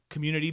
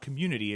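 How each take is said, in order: First: The last syllable is a clear, stressed 'tea'. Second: The last syllable is an ordinary, unstressed 'ty'. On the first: A pun naming a tea dance. The speaker calls it right. "instead of the Y, it's T E A" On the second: The ordinary word for a group of people. The speaker calls it wrong. "it's not community"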